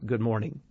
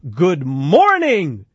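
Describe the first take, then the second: First: The greeting is said calmly and quietly. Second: The greeting is said loudly and energetically. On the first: A simple, ordinary greeting. "My pastor comes out and says good morning. That's about the tone" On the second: An enthusiastic greeting demanding a loud reply. "Some pastors nowadays, that's not good enough"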